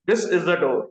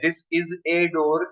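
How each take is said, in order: First: The article is pronounced like a short 'uh'. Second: The article is pronounced like 'ay'. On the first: The speaker calls it right. "એને સાચો એનો ઉચ્ચાર અ છે" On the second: The speaker calls it wrong. "સ્કૂલમાં બધાને શીખવાડ્યું છે કે આર્ટિકલ એ અને એ જ બોલે છે"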